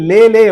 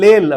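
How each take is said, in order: First: The name ends with a vowel sound. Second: The name ends with a consonant sound. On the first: The speaker calls it right. "லேலே அப்படின்னு இருக்கும்" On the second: The speaker calls it wrong. "நான் லேல் அப்படின்னு சொல்லுவேன். அவங்க எல்லாம் சிரிப்பாங்க"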